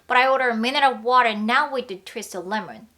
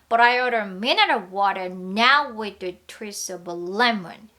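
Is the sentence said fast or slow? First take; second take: fast; slow. First: The sentence is spoken at a fast pace. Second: The sentence is spoken at a slow pace. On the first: "이번엔 조금 빨리 해볼게요" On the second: "좀 천천히 다시 한번 해볼게요"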